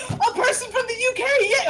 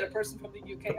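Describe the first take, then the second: First: High-pitched mock-excited cheer; excited character reaction. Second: Much softer acted aside; hushed reaction. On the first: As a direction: act out giddy delight, high and loud. Character's delighted reaction to accent. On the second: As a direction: drop the volume on the acted realization. Same reaction repeated, dropped low.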